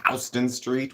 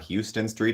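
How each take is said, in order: First: It is said the New York way. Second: It is said the usual non-New York way.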